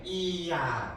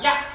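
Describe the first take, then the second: First: It is drawn out slowly, gliding from i to a. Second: It is said quickly, with only a brief i. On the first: "느리게 발음했을 때" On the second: "두 개 중에선 하나가 완전하게 소리 나지 않고"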